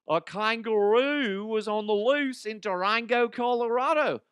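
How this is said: It is read in a put-on accent.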